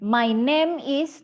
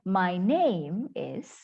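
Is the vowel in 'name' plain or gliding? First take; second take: plain; gliding. First: The vowel in name is a plain short e. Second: The vowel in name glides like English. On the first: The speaker calls it wrong. "So bukan my name is, no, salah" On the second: The speaker calls it right. "Harusnya my name is"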